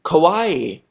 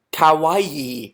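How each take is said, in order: First: "kawaii" said as "ko-WAI"; British rounded "ko" at the start of "kawaii"; British-accented kawaii. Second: "kawaii" said as "ka-wa-EE"; corrected kawaii. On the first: Vlogger testing his accent, "kawaii" said British as "ko-WAI". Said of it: "my British accent". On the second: Vlogger trying the correction, "kawaii" said carefully as "ka-wa-ee". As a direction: open "ka" and long final "ee" in "kawaii". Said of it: "it's kawaii". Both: Shown as a demonstration.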